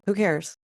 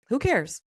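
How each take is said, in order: First: Said in the usual way. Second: CARES lifted high, said with dismissive force; a pep-talk shrug on "cares", pitched up; emphatic who cares. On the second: Shown as a demonstration. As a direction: toss off "cares" high and firm, shrugging judgment away. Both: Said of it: "that was kind of my pep talk to myself".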